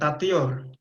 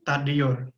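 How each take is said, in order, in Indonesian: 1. Konsonan sebelum akhiran itu t. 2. Konsonan sebelum akhiran itu d. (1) "bukan tatior" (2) "tapi tadior"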